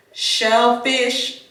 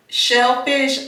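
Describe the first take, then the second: First: Slurred through a retainer; talking around a retainer; wearing a retainer. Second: Said in the usual way. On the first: Real, not acted. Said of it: "sorry, y'all, I've been putting my retainers in". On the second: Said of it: "sorry, y'all".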